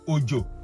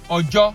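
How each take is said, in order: First: Its tones give the word meaning 'rain'. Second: Its tones give the word meaning 'day'. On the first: "O J O can be rain" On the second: "O J O can be day"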